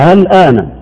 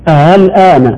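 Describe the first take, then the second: Both takes have the same delivery.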